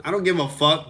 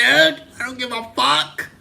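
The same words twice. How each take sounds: First: Said in the usual way. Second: Defiant outburst. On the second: Real, not acted. Ranting at chat, defiant repeat.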